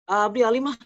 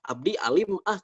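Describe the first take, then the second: First: The words are run together without breaks. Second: The words are said separately with small breaks. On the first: This is how village dialect speakers say it. "Itu kan disambung-sambung gitu" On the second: This is how more urban speakers say it.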